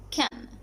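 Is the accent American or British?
American. It is said with an American accent. "according to the American accent"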